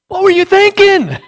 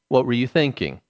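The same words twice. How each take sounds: First: The question sounds sharp and accusing. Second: The question sounds gentle and genuinely curious. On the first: The listener is being blamed for the act. The speaker calls it wrong. "we say that in an accusatory sort of tone" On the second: The listener is invited to explain their state of mind. The speaker calls it right. "now please tell me"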